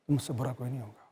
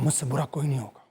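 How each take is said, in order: First: It is delivered in a normal, easy way. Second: It is delivered with heavy, intense effort.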